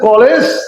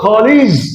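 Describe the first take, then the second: First: The last syllable has an open 'eh' vowel. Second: The last syllable has a short 'ih' vowel. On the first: The speaker calls it wrong. "আগে বলেছেন কলেজ" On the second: The speaker calls it right. "এখন বলবো কলিজ"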